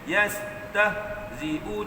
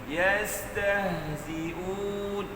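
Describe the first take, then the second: First: The s and h sounds are cut short. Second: The s and h sounds flow on continuously. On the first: The speaker calls it wrong. "Bukannya yastahzi'un, bukan" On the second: The speaker calls it right. "Tapi yastahzi'un. Cara sebut sin dengan ha yang betul"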